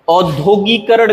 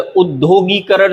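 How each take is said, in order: First: औद्योगिकरण starting on au; wrong pronunciation. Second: उद्योगीकरण starting on short u, with long gee; correct pronunciation. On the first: Teacher showing the mistake, औद्योगिकरण said with initial au. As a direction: open औद्योगिकरण with au-dyo. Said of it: "गलत है". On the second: Teacher correcting it, उद्योगीकरण said with initial u. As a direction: open उद्योगीकरण with ud-dyo. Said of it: "सही है". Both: Shown as a demonstration.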